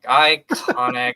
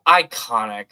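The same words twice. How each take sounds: First: Iconic stretched slow and louder, savoring each syllable; drawn-out emphasis. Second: Said in the usual way. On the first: Shown as a demonstration. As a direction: lean on iconic, dragging it out.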